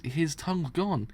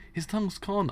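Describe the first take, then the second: First: Said in the usual way. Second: Pitched higher in alarm; repeating it, higher, to the gang in alarm. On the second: Acted. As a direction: say it again, higher and shaken. Horrified gang member spots missing tongue.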